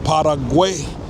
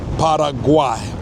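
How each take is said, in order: The two takes are said the same way.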